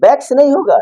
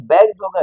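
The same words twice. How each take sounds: First: "बैग्स" with a hissed s at the end; wrong plural sound. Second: "बैग्स" ending in a voiced z; correct plural sound. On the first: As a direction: say "बैग्स" ending in unvoiced स. ("बैग्स" के अंत में स की ध्वनि) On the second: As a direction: say "बैग्स" with a buzzing ज sound for the final s. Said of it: "ज उच्चारण आ जाएगा". ("बैग्स" के अंत में ज की ध्वनि) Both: Shown as a demonstration.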